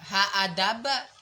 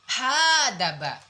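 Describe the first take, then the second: First: The middle hamzah wasl sound is pronounced. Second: The middle hamzah wasl sound is dropped. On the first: The speaker calls it wrong. "Jangan baca haadaba" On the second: The speaker calls it right. "kalau di tengah dia gugur nah dibaca. Kayak tadi hadaba"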